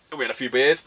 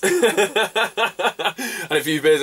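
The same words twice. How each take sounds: First: Said in the usual way. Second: Laughing. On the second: Real, not acted. Repeat with laugh.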